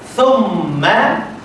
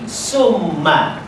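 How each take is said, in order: First: The word begins with a soft th sound. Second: The word begins with a hissing s sound. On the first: The speaker calls it right. "ni rongga mulut" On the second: The speaker calls it wrong. "dia bubuh sifat safir jadi summa"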